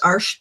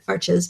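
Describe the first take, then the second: First: The word is said as a single syllable. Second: The word is said with two syllables. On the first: This is how the name is properly pronounced. "it's actually pronounced Arch" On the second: This is how most Americans pronounce the name. "all of us in America pretty much pronounce it Arches"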